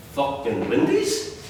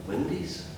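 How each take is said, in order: First: Slow, stretched Fucking Windies with scornful rise; sneering. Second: Soft incredulous Windies rising; quiet disbelief on Windies; scornful. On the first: Son mocking father's window business, slow sneer. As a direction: drag out Windies in contempt. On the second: Son doubting father's plan, quiet scorn. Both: Retold or imitated. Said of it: "I can hear the scorn".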